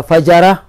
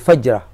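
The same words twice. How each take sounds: First: The j sound is followed by a vowel. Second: The j sound has no vowel after it. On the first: It means wrongdoers, a plural. "تغير المعنى وصار جمعا لفاجر" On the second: It means a single act of wrongdoing. "يقال فجرة بسكون الجيم"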